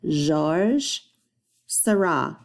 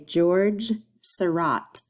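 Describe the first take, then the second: First: Seurat ends with no T sound. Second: Seurat ends with a clear T sound. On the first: This is how it is said in France. The speaker calls it right. "if you are in France, you would say Georges Seurat, no T" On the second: This is how it is said in America. The speaker calls it wrong. "we say it incorrectly. We say George Seurat with a hard T, rot"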